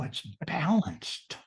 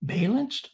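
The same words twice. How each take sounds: First: "balanced" with short A as in pal, drawn out; "balanced" as slow, stretched BAL-anced; correct pronunciation. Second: "Balanced" said BAY-lanced, high and incredulous; "Balanced" as high, questioning BAY-lanced; wrong pronunciation. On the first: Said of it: "It's not balanced". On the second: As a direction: query "Balanced" with a long A, like bay. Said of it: "No, it's balanced". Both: Shown as a demonstration.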